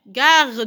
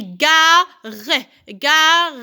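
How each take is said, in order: First: Said in the usual way. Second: "gare" stretched into two beats; syllable by syllable. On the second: Shown as a demonstration. Teacher counting syllables for children, word drawn out in beats. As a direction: split "gare" with a sounded final e. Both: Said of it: "Deux syllabes".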